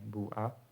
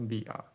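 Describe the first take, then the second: First: The first vowel is a pure u sound. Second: The first vowel is a pure i sound. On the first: It is a rare dialect form. "dhammah yang murni... dialek yang sedikit" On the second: It is the widely used form. "kalau lughah masyhur jadinya bi'a"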